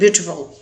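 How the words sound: The middle t is a clear t sound. "British English में कहेंगे तो वो टी को पढ़ते हैं"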